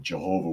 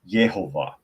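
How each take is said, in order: First: The name begins with a J sound. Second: The name begins with a Y sound. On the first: The speaker calls it wrong. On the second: The speaker calls it right.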